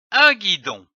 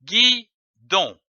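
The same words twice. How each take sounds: First: Said in the usual way. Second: "guidon" split into gui and don; two separate beats in "guidon", pause between them; syllable by syllable. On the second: Shown as a demonstration. Teacher joining syllables for beginning readers, "guidon" broken into gui - don. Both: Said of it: "L'association de ces syllabes donne".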